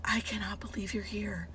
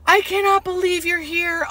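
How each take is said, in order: First: Whispered, overcome disbelief; welling up. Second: High, thrilled patient's voice; happy disbelief. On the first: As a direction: whisper it like a patient moved to tears. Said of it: "like, welling up". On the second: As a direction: marvel out loud at the visitor. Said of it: "so happy and so pleasant". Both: Retold or imitated.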